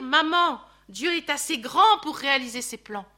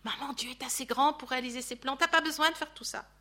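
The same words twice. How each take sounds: First: Said out firmly and loud, leaning on grand; firmly urging his mother; firm hypothetical plea. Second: Gentle plea. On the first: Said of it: "S'il avait eu pu dire". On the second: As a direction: coax her kindly, no push. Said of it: "ça aurait été un électrochoc". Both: Pretend.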